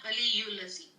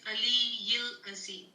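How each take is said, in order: First: The first word ends with an 'ul' sound. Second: The first word ends with an 'il' sound. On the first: The speaker calls it wrong. "It is not Aliyul Azim" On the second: The speaker calls it right. "It is Aliyil Azim"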